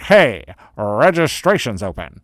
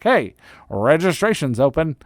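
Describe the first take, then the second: First: Slow, drawn-out announcement; playful, over-stretched promotional call; announcer-style hype. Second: Higher-pitched, bouncy announcement; playful promotional call-out; announcer-style hype. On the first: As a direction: stretch out HEY and roll into the news. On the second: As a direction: call it out like exciting news. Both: Acted. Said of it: "gonna say it like that".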